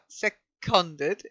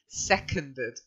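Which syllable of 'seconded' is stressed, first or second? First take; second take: second; first. First: The stress is on the second syllable. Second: The stress is on the first syllable. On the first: The speaker calls it wrong. "not seconded" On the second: The speaker calls it right. "the stress is on the first syllable"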